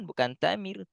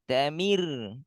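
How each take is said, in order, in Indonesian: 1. Suku kata ta ditekan. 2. Suku katanya diucapkan rata, tanpa tekanan. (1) "Jangan dihentak pada ta" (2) "Tanya rata aja"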